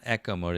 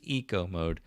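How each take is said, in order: First: The first vowel sounds like 'eh' in echo. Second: The first vowel sounds like 'ee' in eat. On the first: The speaker calls it wrong. "it's not echo mode" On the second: The speaker calls it right. "it's eco mode"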